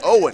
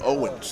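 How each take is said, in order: First: The name ends without an s sound. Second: The name ends with an s sound. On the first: The speaker calls it right. "It's Owen" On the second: The speaker calls it wrong. "people add the S on the end"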